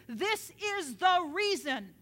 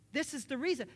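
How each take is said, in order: First: THIS IS THE REASON hammered slowly, louder and higher; slow, forceful stress on every word of "This is the reason"; emphatic. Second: Said in the usual way. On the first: Real, not acted. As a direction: punch each word of "This is the reason". Repeats it for emphasis.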